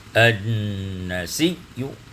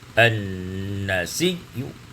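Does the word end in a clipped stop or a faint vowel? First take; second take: faint vowel; faint vowel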